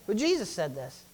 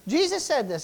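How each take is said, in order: First: Said in the usual way. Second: Jesus punched higher and louder; stress on Jesus. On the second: Shown as a demonstration. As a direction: hit the name Jesus hard, like a preacher.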